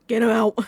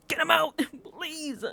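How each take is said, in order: First: Louder, fed-up demand; fed-up plea to get him banished, louder; exasperated. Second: Laughing plea, higher; giggling request to banish him. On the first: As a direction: push it out like you've had enough. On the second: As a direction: break into a laugh while begging. Laughing at her own plea. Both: Real, not acted.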